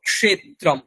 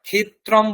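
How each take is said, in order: First: The cluster sounds like ksh. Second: The cluster sounds like kh. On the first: The speaker calls it right. "ক এবং মূর্ধন্য ষয়ের যে যুক্তাক্ষরের যে উচ্চারণ" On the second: The speaker calls it wrong. "বলবো না"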